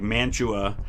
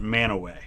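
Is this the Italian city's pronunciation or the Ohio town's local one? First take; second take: Italian city; Ohio town. First: It is pronounced the way the Italian city's name is. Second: It is pronounced the way the Ohio townspeople say it. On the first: "like Mantua, Italy" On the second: "Only they pronounce it Mantua"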